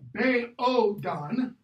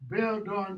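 First: The first vowel is split into two syllables. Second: The first vowel is one gliding syllable. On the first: The speaker calls it wrong. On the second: The speaker calls it right.

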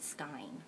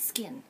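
First: The vowel sounds like 'eye'. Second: The vowel sounds like 'ih'. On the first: The speaker calls it wrong. "When I made a video before, I called it skine" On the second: The speaker calls it right. "It's skin"

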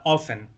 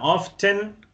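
First: The T sound is dropped from the word. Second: The T sound is pronounced in the word.

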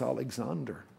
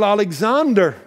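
First: It is said softly and sheepishly. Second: It is said in a louder voice.

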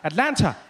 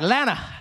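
First: The word is said in full with the t. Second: The first syllable and the t are dropped. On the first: The speaker has just arrived in the city. "when I got here, every time I said it, I'd say Atlanta" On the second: The speaker has fully become local. "by the time I leave, I'll just be like, Lana"

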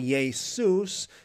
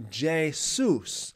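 First: The name begins with a Y sound. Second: The name begins with a J sound. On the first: This is the older form of the name. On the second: This is the later form of the name.

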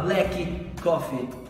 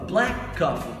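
First: Both K sounds are pronounced separately. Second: The two K sounds merge into one. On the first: The speaker calls it wrong. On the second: The speaker calls it right. "você junta esse som e faz um som só"

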